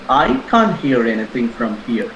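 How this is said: The stress is on the word I. Someone else may be able to hear. "I stressed on I"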